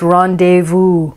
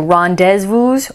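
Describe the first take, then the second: First: The z sound is silent in the word. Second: The z sound is pronounced in the word. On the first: The speaker calls it right. "It's rendezvous. ... We do hear it, not in rendezvous" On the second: The speaker calls it wrong. "Notice we don't say rendezvous"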